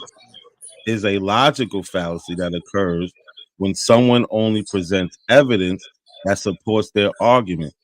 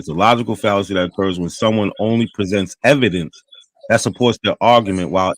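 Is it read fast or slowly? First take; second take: slowly; fast. First: It is read more slowly. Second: It is read quickly.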